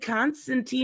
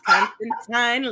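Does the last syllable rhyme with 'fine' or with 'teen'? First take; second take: teen; fine. First: The last syllable rhymes with teen. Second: The last syllable rhymes with fine. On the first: The speaker calls it wrong. "I said it wrong" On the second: The speaker calls it right. "It's Constantine like fine"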